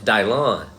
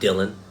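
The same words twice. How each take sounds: First: The name is said in a strange, altered way. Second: The name is said the ordinary, familiar way. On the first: The speaker calls it right. "It's Dylan. It's really the way you pronounce his name" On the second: The speaker calls it wrong. "not Dylan"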